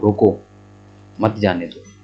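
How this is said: There is a pause after the first word. Stop the person; don't let them go. "Comma को यहाँ पर लगा दें रोको के बाद"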